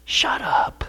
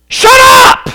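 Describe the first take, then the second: First: Unvoiced whispered shut up. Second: High, loud shout of shut up; shouted command. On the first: Jesus hushing the waves, a soft whisper. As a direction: hiss it softly at the waves. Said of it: "That's what Jesus said". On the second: Jesus ordering the sea to be silent, a loud shout. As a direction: bark it at the storm. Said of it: "Or you could translate it". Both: Shown as a demonstration.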